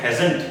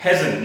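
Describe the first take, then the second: First: "hasn't" with a full -ant and hard t; common wrong hasn't. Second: "hasn't" as hazn, no t at the end; contracted hasn't. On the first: Teacher mimicking what many people say, full hasn't. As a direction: sound out the t of "hasn't". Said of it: "hasn't नहीं होता ये". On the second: Teacher correcting the learners, reduced hasn't. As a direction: drop the t of "hasn't". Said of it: "इसे हम बोलते हैं". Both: Shown as a demonstration.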